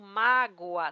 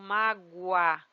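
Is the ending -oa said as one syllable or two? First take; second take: two syllables; one syllable. First: The ending splits into two separate syllables. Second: The ending glides together into one syllable. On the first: "Se eu falo da segunda forma" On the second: "Se eu falo da primeira forma, ... Um U seguido de A"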